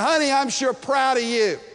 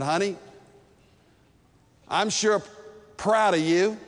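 First: It is said louder than before. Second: It is said at a quiet, romantic volume.

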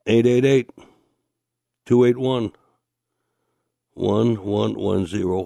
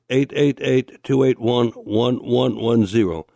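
First: The number is read more slowly. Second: The number is read at a normal, quicker pace.

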